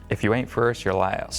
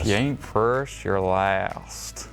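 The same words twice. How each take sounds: First: It has only a weak Southern accent. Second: It has a stronger Southern accent. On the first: The speaker calls it wrong. "We got to work on your southern accent" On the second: The speaker calls it right. "That's better"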